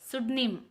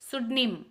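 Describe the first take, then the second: First: The word starts directly with an s sound. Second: The same.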